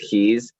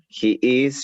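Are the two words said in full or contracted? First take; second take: contracted; full. First: The words merge into one short syllable. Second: Both words are said separately and in full. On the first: "con contracción" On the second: "sin contracción"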